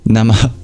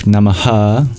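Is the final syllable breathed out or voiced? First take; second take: breathed; voiced. First: The final syllable is an unvoiced breath out. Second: The final syllable is said with full voice. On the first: The speaker calls it right. "better to turn off the voice and just exhale the remaining breath" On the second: The speaker calls it wrong. "instead of Namaha, which unfortunately is the closest thing we have"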